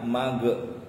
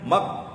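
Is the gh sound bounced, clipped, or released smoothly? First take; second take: bounced; clipped. First: The final consonant bounces with an added vowel. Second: The final consonant is cut off abruptly. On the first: "Ada yang dipantulkan mage. Ini bukan mage, bukan kolkolah" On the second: "Jangan mak, jangan seperti itu juga. Jangan terpotong juga"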